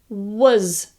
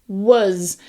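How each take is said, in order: The two takes are said the same way.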